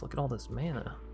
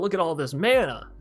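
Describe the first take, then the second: First: It is said in a dismayed, worried tone. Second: It is said in a delighted, pleased tone. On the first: Having lots of mana is a bad thing. "I'm not saying that in a good way. It's like, uh, yikes" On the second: Having lots of mana is a good thing. "It's not like, wow"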